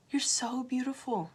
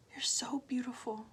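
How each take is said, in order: First: Said in the usual way. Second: Hushed, intimate whisper. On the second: Real, not acted. Telling viewers they are beautiful, a whisper. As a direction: breathe it out as a soft whisper. Repeated affirmation, now whispered.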